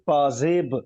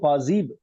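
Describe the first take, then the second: First: The second vowel sounds like 'ay'. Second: The second vowel sounds like 'ee'. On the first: This is how Indians say it. "We वी से पाजेब" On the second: This is how native speakers say it. "जिसकी जबान का लफ्ज है वो पाजीब कहते हैं"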